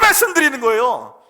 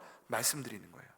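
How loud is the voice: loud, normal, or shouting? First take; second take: shouting; normal. First: It is shouted at full, straining volume. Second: It is said at a normal, quiet volume. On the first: This is speaking with the greatest intensity. "악을 쓰며 말씀드리는" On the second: This is ordinary speaking. "제가 지금 이렇게 말하는 건"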